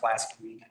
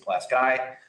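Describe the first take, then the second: First: The name is said the commonly expected way. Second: The name is said the local way. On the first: This is how outsiders assume it is said. The speaker calls it wrong. "if you think it's pronounced Pulaski" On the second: This is how people from the county say it. The speaker calls it right. "folks from that county say Pulaski"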